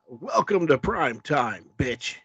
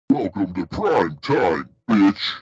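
First: It is said in his normal voice. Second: It is said in a put-on horror-villain voice.

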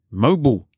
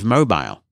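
First: It is pronounced the way Americans say it. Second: It is pronounced the speaker's usual non-American way. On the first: "or as Americans like to say" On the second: "instead of mobile"

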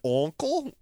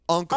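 First: The word sounds swallowed in the throat. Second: The word sounds clear and open. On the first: The speaker calls it wrong. "You say uncle like you're also swallowing something" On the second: The speaker calls it right. "what's the correct pronunciation?"

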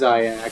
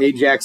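First: The name is said the original, non-Americanized way. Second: The name is said the Americanized way. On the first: The speaker calls it right. "but it is Ajax" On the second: The speaker calls it wrong. "you can Americanize it, call it Ajax if you want"

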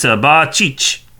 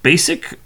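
First: It is said with a ch sound, ba-cheech. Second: It is said like the English word basic. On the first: This is the name's original pronunciation. "the original pronunciation" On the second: This is how the name is commonly said. "the last name apparently is pronounced Basic"

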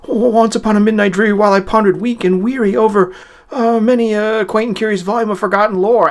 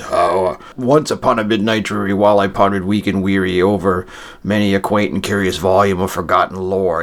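First: It is read quickly in a frenzied, agitated voice. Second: It is read slowly in a heavy, deep voice.

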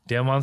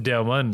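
First: The last syllable sounds like 'mon'. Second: The last syllable sounds like the end of 'almond'. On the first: The speaker calls it wrong. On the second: The speaker calls it right. "pronounced like almond"

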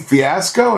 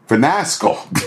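First: No n sound appears after the first vowel. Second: An extra n sound is added after the first vowel. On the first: The speaker calls it right. "do you mean fiasco?" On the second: The speaker calls it wrong. "that pronounced the word fiasco. Finasco"

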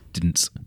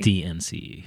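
First: The name is said as one word. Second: The name is said as separate letters. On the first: The speaker calls it wrong. "I always say it Dints" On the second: The speaker calls it right. "It is pronounced D-N-C-E"

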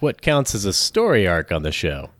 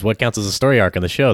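First: It is read at a normal, even pace. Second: It is read as fast as possible.

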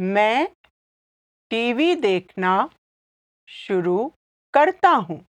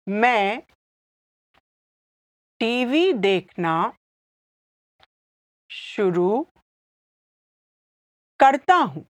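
First: It is said at normal speed. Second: It is said slowly.

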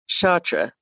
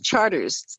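First: It is said with a French-style pronunciation. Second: It is said like the English word charters. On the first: The speaker calls it wrong. "you don't say Chartres Street in New Orleans" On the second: The speaker calls it right. "It's Charters there"

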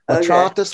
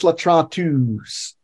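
First: The final vowel is short, like "us". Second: The final vowel is long, like "oos". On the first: It is the nominative form. "change the sound from us" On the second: It is the genitive or accusative form. "to oos"

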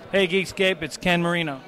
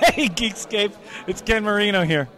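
First: It is said plainly, without laughing. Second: It is said while laughing.

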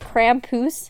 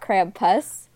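First: It sounds like 'krahm-poos' with open vowels. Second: It sounds like 'cramp-us' with English vowels. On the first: The speaker calls it right. "she spells it K-R-A-H-M hyphen P-O-O-S" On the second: The speaker calls it wrong. "not Krampus"

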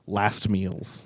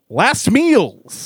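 First: The phrase is said at a normal volume. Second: The phrase is yelled loudly.

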